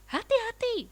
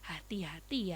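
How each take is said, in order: First: It is said louder with a higher pitch. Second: It is said softly and gently. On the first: It is a sterner warning. "lebih kencang, nadanya lebih tinggi" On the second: It is gentle advice. "halus ya kan, halus"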